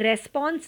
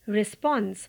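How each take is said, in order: First: The first vowel is an open 'e' sound. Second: The first vowel is a short 'i' sound. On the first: The speaker calls it wrong. "इसे भी रेस्पॉन्स नहीं पढ़ना" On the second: The speaker calls it right. "आपको पढ़ना है रिस्पॉन्स"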